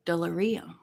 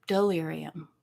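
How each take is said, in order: First: Soft "Delirium" said as "doll-er-ee-um"; first pronunciation. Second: Soft "Delirium" said as "doll-AIR-ee-um"; alternative pronunciation. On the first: Vlogger trying the name over, soft "Delirium" with "er". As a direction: say "Delirium" softly with "er" in the middle. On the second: Vlogger trying the name over, soft "Delirium" with "AIR". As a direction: say "Delirium" softly with "AIR" in the middle. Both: Shown as a demonstration. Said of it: "what syllable would you put the accent on".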